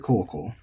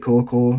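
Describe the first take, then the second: First: The pitch is high on the first mora, then drops. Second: The pitch stays flat with no drop. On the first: This is a newer accent you may hear. "increasingly saying it head high" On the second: This is the traditional accent to use yourself. "this is flat"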